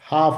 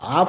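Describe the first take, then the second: First: The word starts with a clear h sound. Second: The word starts with a vowel, no h sound. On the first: The speaker calls it right. "హెచ్ ఉంది కదా, హాఫ్ అనాలి" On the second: The speaker calls it wrong. "హాఫ్ కాదు"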